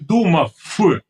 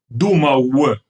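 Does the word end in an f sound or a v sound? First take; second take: f sound; v sound. First: The word ends with an f sound. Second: The word ends with a clear v sound. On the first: The speaker calls it wrong. "Не думав" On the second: The speaker calls it right. "Де ти там літеру ф бачиш в кінці?"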